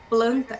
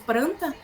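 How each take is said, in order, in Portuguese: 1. A segunda consoante é um som de L. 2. A segunda consoante é um som de R. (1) "em vez do falante ele produzir planta" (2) "na troca do L pelo R"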